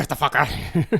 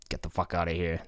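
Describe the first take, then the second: First: Echoing the line with a mocking punch; mock tough-guy echo. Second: Muttered quote. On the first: Cohost echoes the boxer's line with mock toughness. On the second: Retold or imitated. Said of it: "And he's like".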